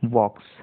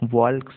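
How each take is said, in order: First: The silent consonant is left out entirely. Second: A normally silent consonant is sounded out. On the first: The speaker calls it right. "इसका सही pronunciation है" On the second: The speaker calls it wrong. "कई लोग वॉल्क्स ऐसा पढ़ते हैं जो कि गलत है"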